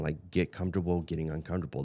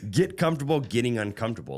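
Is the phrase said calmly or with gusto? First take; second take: calmly; with gusto. First: It is said in a plain, calm way. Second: It is said with loud, lively energy.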